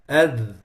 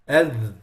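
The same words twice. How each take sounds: Both takes have the same delivery.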